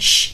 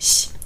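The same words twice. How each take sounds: First: The sh sound is hard, like German sch. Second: The sh sound is soft and slightly lisped. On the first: The speaker calls it wrong. "Es ist keine sh" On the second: The speaker calls it right. "sondern sh"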